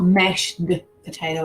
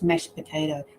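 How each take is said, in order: First: The D at the end of mashed is pronounced. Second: The D at the end of mashed is dropped. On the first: The speaker calls it wrong. "It's not mashed potato" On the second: The speaker calls it right. "We're still sounding the P, but we're not doing the D"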